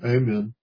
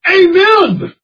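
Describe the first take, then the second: First: It is said flat, in a monotone. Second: It is said lively, as an exclamation. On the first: It is a dull, routine ending. The speaker calls it wrong. "we mustn't read that in a monotone" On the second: It is a burst of praise. The speaker calls it right. "It's a burst of praise"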